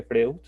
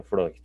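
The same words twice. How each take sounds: First: Freud said as written, "FREH-oo"; spelling pronunciation. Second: Said in the usual way. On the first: Shown as a demonstration. Teacher showing how Freud is written, spelling pronunciation "Freh-u". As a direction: sound out Freud letter by letter as "Freu". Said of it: "se escribe Freud". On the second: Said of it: "pero se pronuncia Freud".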